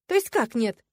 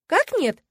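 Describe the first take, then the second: First: Loud, higher baffled question; taken aback. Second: Much higher, louder stunned repeat; stunned disbelief. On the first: Heroine hearing the refusal, taken aback. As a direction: demand an explanation, taken aback. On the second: Heroine repeating the refusal back, stunned. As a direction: cry it out in disbelief. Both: A narrator's reading. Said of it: "Я аж опешила".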